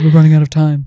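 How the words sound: It is said in a deep, manly voice. "He's got a very deep, manly voice"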